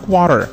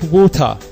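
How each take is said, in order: First: It is said in an American accent. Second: It is said in a British accent.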